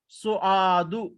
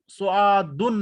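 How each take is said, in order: First: The name ends in a short u vowel. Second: The name ends in u followed by n. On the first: The speaker calls it right. "एक ही पेश बोला" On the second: The speaker calls it wrong. "सुआदुन नहीं बोला"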